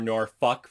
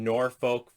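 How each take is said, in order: First: Norfolk is said the way locals say it. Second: Norfolk is said in a general, non-local way.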